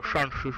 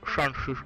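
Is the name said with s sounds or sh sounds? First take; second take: sh sounds; sh sounds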